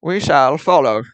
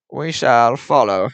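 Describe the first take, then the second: First: Put-on slow, lofty old British accent. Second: Said in the usual way. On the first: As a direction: announce it like a period-film Englishman. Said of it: "old British". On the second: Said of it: "Am I right?".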